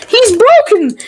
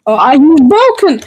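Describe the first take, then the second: First: Laughing, pitched up; cracking up at the screen. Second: Said in the usual way. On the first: Real, not acted. Laughing at the game.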